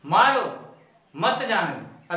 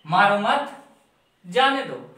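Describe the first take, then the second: First: "मारो" punched and falling, pause, then "मत जाने दो" together; loud "मारो" alone, then "मत जाने दो" run as one phrase; pause after मारो. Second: "मारो मत" as one rising phrase, pause, then "जाने दो"; loud, raised "मारो मत", a clear stop, falling "जाने दो"; pause after मत. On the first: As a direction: break right after "मारो". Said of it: "अर्थात उस आदमी को मारना है". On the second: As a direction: break after "मत" so "जाने दो" stands apart. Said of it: "जैसे ही विराम का प्रयोग करेंगे". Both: Shown as a demonstration.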